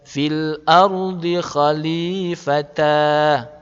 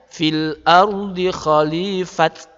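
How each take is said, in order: First: The last word ends on an open 'a' vowel. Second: The last word ends with a 't' sound. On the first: "bukan dibaca" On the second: "juga bukan dibaca"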